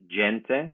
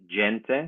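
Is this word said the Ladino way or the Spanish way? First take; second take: Ladino; Ladino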